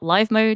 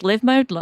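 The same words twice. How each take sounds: First: 'Live' is said with a long i, like five. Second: 'Live' is said with a short i, like give. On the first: The mode is about something happening in real time. The speaker calls it wrong. "not live mode" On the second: The mode is about living a life. The speaker calls it right. "It is live mode, They're all verbs"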